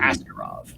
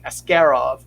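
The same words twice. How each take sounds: First: The stress is on the first syllable. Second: The stress is on the second syllable. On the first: "in English, ... the hard sound is that first uh, first ... syllable" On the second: "in a lot of Russian names, the hard syllable is that second one"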